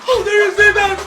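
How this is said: It sounds scared.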